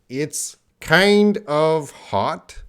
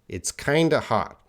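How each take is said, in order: First: Kind of is said as two full words. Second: Kind of is reduced to one word, kinda. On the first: "the first line" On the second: "The second line, it's kinda hot"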